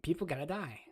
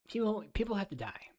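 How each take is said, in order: First: Softer mock pundit voice; Ben Shapiro impression. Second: Higher mock pundit voice; Ben Shapiro impression. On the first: Streamer mimics Ben Shapiro saying people gotta die, softly. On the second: Streamer mocks Ben Shapiro again, higher pitched. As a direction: parody him pitched up. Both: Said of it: "That's my Ben Shapiro voice".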